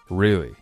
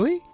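First: The pitch falls at the end of the word. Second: The pitch rises at the end of the word. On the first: The speaker accepts it, like saying all right. "那如果我们把really 尾调下去的话" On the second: The speaker doubts what was said. "我们把really 这个词尾调上扬"

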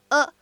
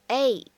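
First: The article is said weak and unstressed. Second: The article is said full and stressed. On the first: "没有读成一个a" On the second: "它在这边是一个重读的处理"

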